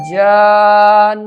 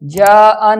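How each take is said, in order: First: "जान" with one very long unbroken vowel; correct long madd. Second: "जान" broken into two vowels, ja-an; wrong split reading. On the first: Teacher showing the right reading, very long vowel. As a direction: hold "जान" long, closing on a firm n. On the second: Teacher showing the mistake, vowel broken in two. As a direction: split "जान" as jaa-an, unheld. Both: Shown as a demonstration. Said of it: "जान नहीं पढ़ना".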